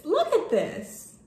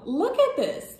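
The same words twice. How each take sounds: First: Higher, louder, drawn-out look at this; real awed delight; excited, slower. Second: Excited. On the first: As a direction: show it off, savouring each word. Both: Real, not acted. Excited showing the letter.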